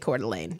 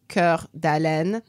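First: The name is pronounced with American English sounds. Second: The name is pronounced with French sounds. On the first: "we say" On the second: "Basically pronounced, like, it's spelled"

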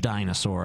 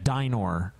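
First: The word has an s sound in the middle. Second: The word has no s sound in the middle. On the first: The speaker calls it wrong. "I was pronouncing it incorrectly" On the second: The speaker calls it right. "a dinor"

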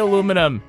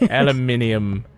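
First: It has four syllables, stressed on the second. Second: It has five syllables, stressed on the third.

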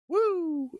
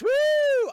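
First: It is said quietly with low energy. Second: It is shouted loudly with high energy.

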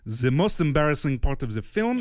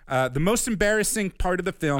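First: It is read in a put-on foreign accent. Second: It is read in the speaker's own accent.

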